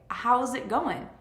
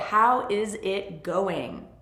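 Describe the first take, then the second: First: 'How is' is contracted to 'how's'. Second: 'How is' is said as two separate words.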